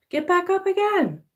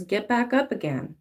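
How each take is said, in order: First: Much higher, cheering "Get back up again"; high sing-song encouragement. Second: Said in the usual way. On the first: Shown as a demonstration.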